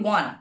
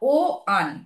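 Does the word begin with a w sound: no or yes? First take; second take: yes; no. First: The word starts with a w sound. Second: The word starts with a plain vowel, no w. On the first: The speaker calls it right. "আমরা বলি ওয়ান" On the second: The speaker calls it wrong. "আমরা কিন্তু বলছি না ও আন"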